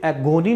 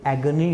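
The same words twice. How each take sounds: First: 'एगोनी' said 'a-go-nee'; 'एगोनी' with middle syllable like 'go'; wrong long o. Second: 'एगनी' as 'ag-nee', no o; slow 'एगनी', g running into n; correct reduced vowel. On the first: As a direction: demonstrate misreading 'एगोनी' with a full o. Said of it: "नहीं होता". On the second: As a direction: model 'एगनी' with the middle vowel swallowed. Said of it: "ये एगनी होता है". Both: Shown as a demonstration.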